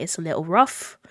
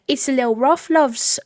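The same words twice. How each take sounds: First: Put-on rough, understated British accent. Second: High, loud hammed-up British accent. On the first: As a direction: say it in a slightly lower, rusty British accent. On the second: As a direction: belt it out in an exaggerated British lilt. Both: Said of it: "haven't done the British accent".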